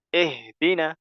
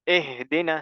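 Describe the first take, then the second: Both takes have the same delivery.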